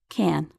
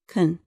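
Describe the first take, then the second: First: It is said slowly with a full vowel. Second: It is said quickly with a reduced vowel. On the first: "In slow speech" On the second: "In fast speech"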